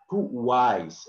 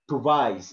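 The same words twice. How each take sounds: First: TWICE with an emphasised W, tu-WICE; TWICE as too-WICE, no V; corrected pronunciation. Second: TWICE with a V for the W, tu-VICE; wrong pronunciation. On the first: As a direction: round into the W of "twice", drawing it out. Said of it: "W here is emphasis". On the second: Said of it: "We don't say twice". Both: Shown as a demonstration.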